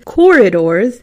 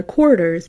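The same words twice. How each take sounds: First: "Corridors" said loudly in three full syllables; over-enunciate "Corridors", sounding the middle syllable; careful correction. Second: Slurred Midwestern "corridors", middle syllable swallowed; Midwestern accent. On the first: Shown as a demonstration. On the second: Real, not acted. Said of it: "That's my Midwestern accent coming through".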